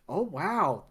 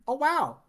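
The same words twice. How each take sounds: First: It is said in the speaker's natural voice. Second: It is said in a put-on character voice. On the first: The speaker calls it wrong. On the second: The speaker calls it right.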